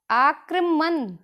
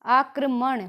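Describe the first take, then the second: First: Slow आक्रमण ending in a plain न; आक्रमण drawn out with the wrong "n"; wrong pronunciation. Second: आक्रमण ending in retroflex ण; आक्रमण with the tongue curled on ण; correct pronunciation. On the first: Teacher shows students the mistaken आक्रमण, slowly. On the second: Teacher gives students the right आक्रमण. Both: Shown as a demonstration. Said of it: "न और ण की अशुद्धियाँ".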